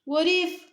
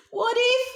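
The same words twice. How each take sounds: First: Said in the usual way. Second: Higher worried what if. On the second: Shown as a demonstration. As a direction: push "what if" up in alarm. Phrase repeated higher.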